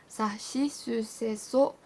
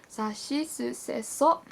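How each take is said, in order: No difference in how they are said.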